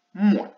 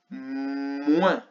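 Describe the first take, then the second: First: Said in the usual way. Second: "Moins" with a long held M at the start; drawn-out M. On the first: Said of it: "le son M et le son ouin". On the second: Shown as a demonstration. Teacher dictating a last syllable to pupils, first sound drawn out. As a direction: stretch the M of "Moins" before the vowel. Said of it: "J'entends le son M".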